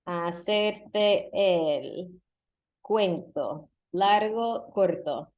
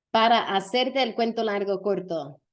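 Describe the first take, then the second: First: "hacerte el cuento largo corto" drawn out very slowly, word by word; slow demo. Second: Said in the usual way. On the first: Shown as a demonstration. Teacher to students, first take, very slow and deliberate. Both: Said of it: "Any guesses?".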